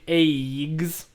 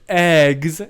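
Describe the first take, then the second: First: The vowel is raised toward an 'ay' sound. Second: The vowel is a plain short 'eh' sound. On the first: The speaker says it this way, a very American habit. "I say eggs" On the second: Someone else says it this way. "Susan says eggs"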